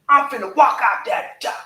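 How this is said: It is said strongly with a gruff voice. The speaker means it and will follow through. The speaker calls it right. "That's how you tell them strong"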